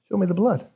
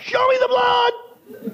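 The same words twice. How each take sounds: First: The phrase is said quietly and calmly. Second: The phrase is said loudly and forcefully. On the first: The speaker calls it wrong. "He didn't say it with that quietness" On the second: The speaker calls it right. "He would say it much louder"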